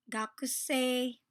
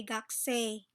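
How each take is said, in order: First: "Gakusei" said slowly with every vowel, ga-ku-sei; slow full gakusei. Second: "gakusei" with the u dropped, like "gakse"; quick gakse. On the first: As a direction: spell out "Gakusei" syllable by syllable. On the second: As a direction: swallow the u in "gakusei". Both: Shown as a demonstration. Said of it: "Or, you can say gakusei".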